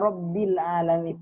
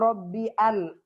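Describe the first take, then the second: First: The 'l' runs straight into the next word. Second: A separate 'a' sound starts the second word. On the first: The speaker calls it right. "tapi dibaca Robbil alamin" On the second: The speaker calls it wrong. "bukan dibaca Robbi al, ah tidak"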